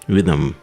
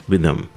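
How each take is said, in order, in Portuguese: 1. O h é omitido e ligado a 'with'. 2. O h é omitido e ligado a 'with'.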